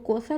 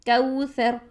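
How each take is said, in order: First: The first vowel is a single plain vowel. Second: The first vowel glides softly from a to u. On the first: The speaker calls it wrong. "Urdu लैंग्वेज में अगर हम इस वर्ड को कौसर बोलते हैं" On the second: The speaker calls it right. "नरमी से मोड़ पैदा करेंगे"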